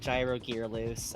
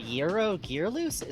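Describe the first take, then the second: First: The name is pronounced in a plain, common way. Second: The name is pronounced in an overcareful, exaggerated way. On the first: The speaker calls it right. "commonly pronounced Gyro in in American English" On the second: The speaker calls it wrong. "I shouldn't try to overpronounce his name"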